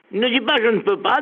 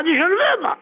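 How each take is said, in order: First: Said in the usual way. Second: "veux" pitched high and falling; preacher's raised "veux"; high stress on veux. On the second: Shown as a demonstration. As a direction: ring out "veux" high as the lesson.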